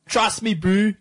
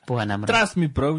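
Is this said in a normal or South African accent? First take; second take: South African; normal. First: It is said in a South African accent. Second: It is said in the speaker's normal accent.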